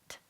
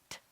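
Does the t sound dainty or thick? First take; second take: dainty; dainty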